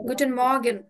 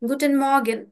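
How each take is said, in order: Both takes have the same delivery.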